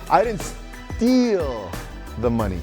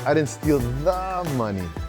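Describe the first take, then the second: First: The stress is on "steal". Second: The stress is on "money".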